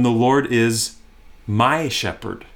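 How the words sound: The stress falls on the word my. He is personally and uniquely the speaker's shepherd. "Emphasize the "my" word"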